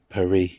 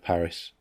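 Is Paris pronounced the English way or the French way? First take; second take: French; English. First: The name is said with a French pronunciation. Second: The name is said with an English pronunciation. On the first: "Like saying Paris" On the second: "instead of Paris"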